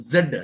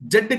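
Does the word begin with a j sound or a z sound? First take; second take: z sound; j sound. First: It begins with a z sound. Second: It begins with a j sound. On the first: The speaker calls it right. "జెడ్ అది" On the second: The speaker calls it wrong. "జెడ్ కాదు"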